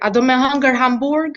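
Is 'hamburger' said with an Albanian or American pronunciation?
Albanian. Hamburger is said with Albanian sounds, quickly. The speaker calls it right. "Like in Albanian"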